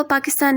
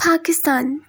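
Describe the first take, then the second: First: Said in the usual way. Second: पाकिस्तान with a puff of air on the first P; aspirated P. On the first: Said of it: "वो पाकिस्तान नहीं कहेंगे". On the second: Shown as a demonstration. Teacher showing how Americans would say it, aspirated P. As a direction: start पाकिस्तान as "Phakistan". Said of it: "वो कहेंगे".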